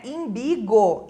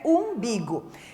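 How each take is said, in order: First: The word begins with an 'i' sound. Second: The word begins with a 'u' sound. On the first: The speaker calls it wrong. "a gente costuma ouvir, né, imbigo. Imbigo não existe" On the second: The speaker calls it right. "Correto é umbigo"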